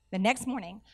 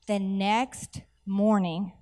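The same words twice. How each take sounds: First: Said in the usual way. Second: Very slow, drawn-out words; dramatic slow reveal. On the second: Real, not acted. Preacher building up to her miracle story, dramatically slow. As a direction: stretch each word for suspense.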